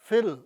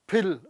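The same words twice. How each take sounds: First: The word begins with an f sound. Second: The word begins with an aspirated p sound. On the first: The speaker calls it right. "ਜਦੋਂ ਕਿ ਉਹ actually ਹੈ" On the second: The speaker calls it wrong. "ਅਸੀਂ normally ਅਸੀਂ ਕੀ ਦੇਖਦੇ ਹਾਂ ਕਿ ਐਫ I double L ਜਿਹੜਾ ਹੈਗਾ ਉਹ ਕੀ ਹੈ"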